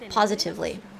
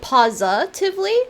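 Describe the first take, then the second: First: The vowel after 'pos' is an 'I' sound. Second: The vowel after 'pos' is not an 'I' sound. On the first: This is the technically proper pronunciation. The speaker calls it right. "Posi, I, as in I, positively" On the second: This is how the word is commonly said now. The speaker calls it wrong. "a lot of people say it positively"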